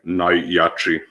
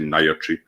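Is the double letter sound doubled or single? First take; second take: doubled; single. First: The double consonant sound is pronounced twice. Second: The double consonant sound is pronounced once. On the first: The speaker calls it right. "If there's a double letter, they're both pronounced" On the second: The speaker calls it wrong. "You don't say Najači, and then people get that wrong"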